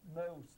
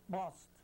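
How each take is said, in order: First: The vowel glides between two sounds. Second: The vowel is a single, unchanging sound. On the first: The speaker calls it right. "the O in most has two sounds" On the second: The speaker calls it wrong. "if I say most instead of most"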